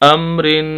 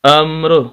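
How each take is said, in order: First: The word ends with a nasalized -in sound. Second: The word ends abruptly on a bare r. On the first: The reading continues without stopping. "इसको हम गुन्ना करेंगे इस पर" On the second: The reading stops on this word. "वक्फ की हालत में हम इसको पढ़ेंगे"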